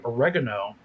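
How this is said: The word has an American pronunciation. "how we say oregano"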